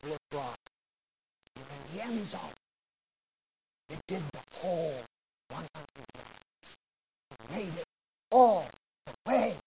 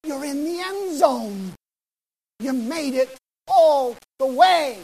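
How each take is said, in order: First: Softer, hushed reveal to the exhausted player; quiet coach. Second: Slow, louder, higher proclamation; the Lord greeting the faithful at the finish; the Lord's voice. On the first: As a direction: lower your voice, let him take it in. Coach reveals the end zone. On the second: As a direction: announce it like a heavenly welcome. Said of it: "the Lord's gonna look at us and he's gonna say". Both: Retold or imitated.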